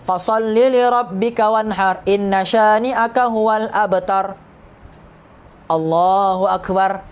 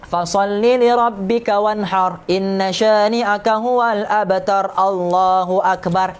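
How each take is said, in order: First: A pause comes before Allahu akbar. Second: Allahu akbar follows the verse with no pause.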